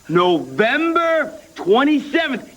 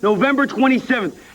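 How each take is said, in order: First: It is said very slowly. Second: It is said at normal speed.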